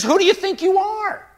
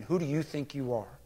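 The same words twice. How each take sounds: First: High, loud, indignant outburst; unhesitating rebuke. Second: Low, restrained rebuke; hint at anger without raising the voice; almost angry. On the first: Acted. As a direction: explode at the interrupter. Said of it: "Jesus doesn't even hesitate". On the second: Retold or imitated. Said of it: "in an almost angry tone".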